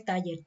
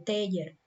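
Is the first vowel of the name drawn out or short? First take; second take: short; drawn out. First: The first vowel is short and plain. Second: The first vowel is drawn out long. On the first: The speaker calls it wrong. "en lugar de Taller" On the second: The speaker calls it right. "algo así que alarga la E"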